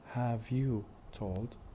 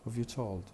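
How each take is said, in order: First: Have and you are two separate syllables. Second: Have and you merge into one syllable. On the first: "Who have you told becomes" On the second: "two weak syllables combined together into one"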